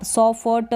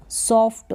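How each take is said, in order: First: "सॉ फ ट" as so-fa-ta; full vowels on f and t in "सॉ फ ट"; wrong split reading. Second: Half f joined to t in "सॉफ्ट"; correct blended reading. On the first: Teacher warning beginners off a wrong reading, "सॉ फ ट" split in three. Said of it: "नहीं पढ़ेंगे". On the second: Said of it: "क्योंकि आधा फ है". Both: Shown as a demonstration.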